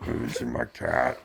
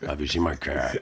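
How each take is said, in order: First: Put-on whispered, slow old lady murmur; breathy confused old woman asking; dotty absent-minded old lady. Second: Put-on a confused old woman's voice; dotty absent-minded old lady. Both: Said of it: "Your turn".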